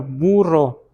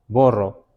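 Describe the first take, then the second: First: The first vowel is a u sound. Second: The first vowel is an o sound. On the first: "diga burro" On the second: "No podíamos, decíamos borro"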